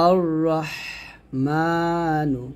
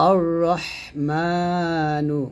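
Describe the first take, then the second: No difference in how they are said.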